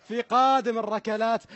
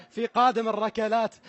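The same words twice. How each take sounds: The two takes are said the same way.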